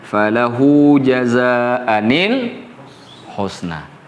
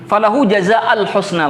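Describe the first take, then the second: First: An n sound with an i vowel links the words. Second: No n sound links the words. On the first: The good is a description of the reward. "Dikonversi jadi nun. Maka diberi harakah kasrah" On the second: The good is no longer a description of the reward. "membaca ini dengan satu satu saja"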